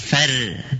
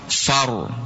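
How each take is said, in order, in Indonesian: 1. Vokalnya tipis, seperti 'e', dengan r yang ringan. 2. Vokalnya terbuka seperti 'a', dengan r yang tebal. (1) "Bukan fer" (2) "ro tebal"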